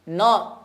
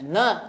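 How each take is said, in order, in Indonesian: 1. Suku kata ini diucapkan tebal dan berat. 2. Suku kata ini diucapkan tipis dan ringan. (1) "hununnya tidak terbawa tebal" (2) "kita latihkan untuk dibaca tipis"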